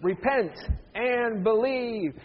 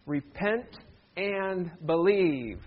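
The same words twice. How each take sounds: First: Firm "Repent", pause, long-held "and believe"; rally everyone to say it slowly and firmly; emphatic group recitation. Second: "Repent", pause, then a drawn-out "and believe"; measured, slow read-along at an ordinary volume; leading group reading. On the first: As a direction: punch "Repent", stretch out "believe". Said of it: "Let's say it one more time". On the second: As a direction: lead them slowly through "Repent and believe". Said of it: "Can you read them with me?". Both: Shown as a demonstration.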